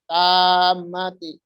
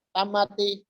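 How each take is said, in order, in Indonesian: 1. Bunyi m ditahan panjang. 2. Bunyi m pendek. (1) "itu panjang" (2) "dibaca tamati"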